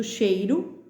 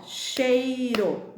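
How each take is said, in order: First: Said in the usual way. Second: "cheiro" very slow, as chei-ro; teacher sounding out chei-ro slowly; syllable by syllable. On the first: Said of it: "tá escrito cheiro". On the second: Shown as a demonstration. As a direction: stretch "cheiro" out, holding the ei. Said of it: "bate a palminha aí das sílabas".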